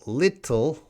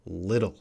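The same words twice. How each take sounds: First: Little with a crisp true T, pitched higher; British-sounding T. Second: Little said "liddle", American style; D-sounding TT. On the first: Teacher showing the less American version, British-sounding T. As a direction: hit a clear T in "little", British style. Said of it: "that sounds a little more British". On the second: Teacher showing a student the American D-like TT. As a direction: soften the TT in "little" to a D. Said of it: "might sound like a D sound". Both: Shown as a demonstration.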